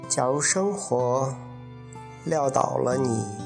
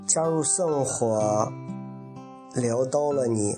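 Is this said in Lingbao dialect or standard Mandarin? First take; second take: standard Mandarin; Lingbao dialect. First: It is spoken in standard Mandarin pronunciation. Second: It is spoken in Henan Lingbao dialect pronunciation. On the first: "他用普通话说是应该是这样讲的" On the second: "来自灵宝的方言"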